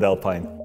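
The name is said with a British pronunciation. This is how British people say the name. "if the British want to call it Alpine"

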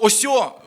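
The word is said softly, with a softened ending. It sounds like gently persuading someone. "Просто «осьо», воно мені на слух звучить так, ніби ти дуже дипломатичним шляхом намагаєшся"

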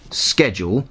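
The word is pronounced with an American accent. The speaker calls it wrong. "the American pronunciation schedule that has usurped it"

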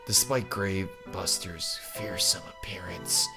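The character voice is weak and half-hearted. The speaker calls it wrong. "No, if I'm gonna do that voice, I'm gonna do it better"

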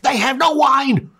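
It is said in a reproachful, demanding tone.

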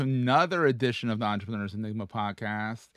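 The word another sounds surprised.

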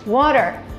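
It is said with an American accent.

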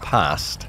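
It is said in a northern British accent. "like I would, because I'm northern"

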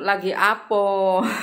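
The final vowel is an 'o'. This is how Panguragan people say it. "Kalau Panguragan itu"

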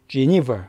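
It is said English-style, stressing the second syllable. The speaker calls it right. "니의 강세가 들어가서"

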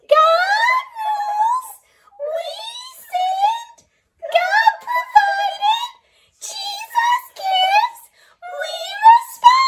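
It is said in a high, squeaky voice.

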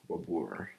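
The name is said with an American R. "American way is like Babur, like R"

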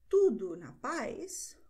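It is said with a questioning tune. Someone asks how things are. "fragt dir jemand"

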